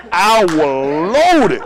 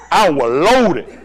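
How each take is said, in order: First: "loaded" hugely drawn out, swelling louder; exaggerated emphasis. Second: "loaded" stretched out and loud; emphatic admission. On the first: Comic repeats his admission, "loaded" hugely stretched out. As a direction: stretch "loaded" to a very slow, loud peak. Second, more drawn-out take. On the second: Retold or imitated. Comic admits to the crowd, "loaded" drawn out emphatically. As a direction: lean slowly on "loaded".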